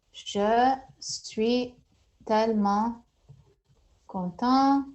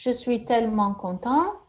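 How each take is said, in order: First: Je suis tellement content broken into slow chunks; word by word. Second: Said in the usual way. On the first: Shown as a demonstration. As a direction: split Je suis tellement content into separate words. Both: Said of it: "I'm very happy".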